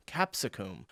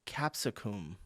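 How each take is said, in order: Both takes have the same delivery.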